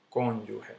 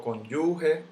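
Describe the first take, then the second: First: Said in the usual way. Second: Cónyuge stressed on YU, con-YU-ge; wrong middle stress. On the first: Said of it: "El golpe cae aquí". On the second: Shown as a demonstration. Teacher showing how not to say it, cónyuge stressed on YU. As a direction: lift and lengthen YU in cónyuge. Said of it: "Yo no digo cónyuge".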